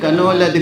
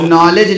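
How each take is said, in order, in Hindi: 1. k बोला जाता है, जैसे 'ka-no-ledge' में। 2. शब्द n से शुरू होता है; k साइलेंट है। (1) "उसे कह रहे थे कनो लद गए" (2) "जो नॉलेज लिखा हुआ था"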